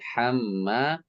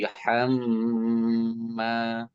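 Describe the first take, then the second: First: The double m is held briefly. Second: The double m is held longer. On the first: The speaker calls it wrong. "bukan hamma" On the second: The speaker calls it right. "tapi hamma ... hamma tahan lebih lama"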